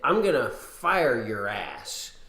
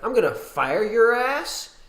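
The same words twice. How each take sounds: First: The voice falls at the end like a statement. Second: The voice rises at the end like a question.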